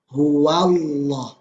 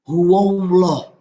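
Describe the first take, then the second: First: The vowel after w sounds open, like a. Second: The vowel after w sounds rounded, like o. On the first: The speaker calls it right. "Dibuka mulutnya. Wa" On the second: The speaker calls it wrong. "Jangan sampai condong suaranya ke o"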